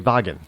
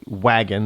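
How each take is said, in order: First: The word begins with a V sound. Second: The word begins with a W sound. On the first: "they say wagen" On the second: "they don't say wagon"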